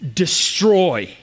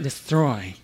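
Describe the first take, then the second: First: The word is said loudly, with force. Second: The word is said softly, without force. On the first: The speaker calls it right. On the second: The speaker calls it wrong.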